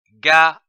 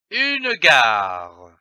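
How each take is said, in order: First: "gare" split into ga and re with a pause; teacher's breakdown of "gare": ga, then a separate re; syllable by syllable. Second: Said in the usual way. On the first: Shown as a demonstration. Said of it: "L'association de ces deux syllabes".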